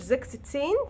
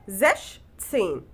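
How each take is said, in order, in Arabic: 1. الجزء الأول ينتهي بصوت 'ks'. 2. الجزء الأول ينتهي بصوت 'sh'. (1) "ما بنطقهاش زكس تسين كده فالش" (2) "بنطقها زش تسين"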